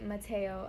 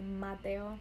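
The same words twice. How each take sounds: First: The name is said with an English accent. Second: The name is said with a Spanish accent. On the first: The speaker calls it wrong. "I don't want my son to be Mateo" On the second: The speaker calls it right. "you sound so cute when you say it with a Spanish accent"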